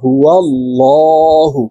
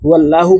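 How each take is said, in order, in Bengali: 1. L উচ্চারণটি মোটা ও ভারী। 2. L উচ্চারণটি পাতলা ও সরু। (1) "বলতে হবে হুয়াল্লাহু। ... মোটা করিয়া পড়িতে হয়" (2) "হুয়াল্লাহু বললে সঠিকভাবে উচ্চারণ হবে না"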